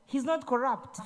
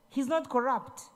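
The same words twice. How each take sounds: The two takes are said the same way.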